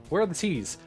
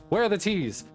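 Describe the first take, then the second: No difference in how they are said.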